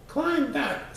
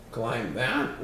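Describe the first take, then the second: First: High, sharp bug voice giving an order; squeaky insect snapping a command; bossy bug command. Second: "Climb that?" said lower, as a shaky disbelieving question; the elephant balking at the mountain; dismayed question. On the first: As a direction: point up and bark it like a tiny boss. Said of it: "said the bug". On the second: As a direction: gulp and ask it in disbelief. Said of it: "Horn gulped". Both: A narrator's reading.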